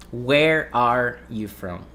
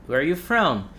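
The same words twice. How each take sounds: First: Slow careful question with a clear separate "are" in "Where are you from?"; slow, every word separate. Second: Quick "Where are you from?" with "are" melting into "where"; said fast, linked. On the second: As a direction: run "Where are you from?" together in one smooth breath. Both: Shown as a demonstration. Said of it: "when you say it fast".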